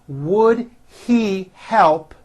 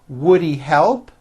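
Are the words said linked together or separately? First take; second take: separately; linked. First: Each word is said fully and separately. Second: The words are reduced and run together.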